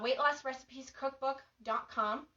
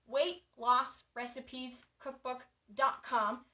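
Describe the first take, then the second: First: The address is said very quickly. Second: The address is said more slowly. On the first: "I said it really fast" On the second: "I'll say it a little slower"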